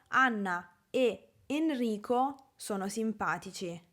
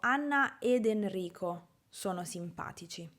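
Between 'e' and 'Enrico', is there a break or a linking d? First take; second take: break; linking d. First: The two e vowels meet with a small break. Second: A d sound links the two e vowels smoothly.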